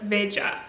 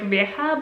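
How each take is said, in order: First: The word is pronounced the Portuguese way. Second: The word is pronounced the Spanish way. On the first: The speaker calls it right. "since it's Portuguese ... but Veja" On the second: The speaker calls it wrong. "this would be if it would be Spanish ... I suppose it's not pronounced like Veja"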